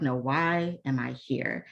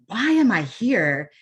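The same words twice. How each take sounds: First: Sincere self-question, "why" stretched without raising the voice; reflective WHY. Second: "Why" drawn out, high and loud, then "am I here?"; exasperated-sounding "WHY am I here?", louder and higher; stress on WHY as complaint. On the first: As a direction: ask it slowly and evenly, gently weighting "why". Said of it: "It can be more like". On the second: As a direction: hit WHY hard and high, slowly, like a protest. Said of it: "emphasize the words in that question". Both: Shown as a demonstration.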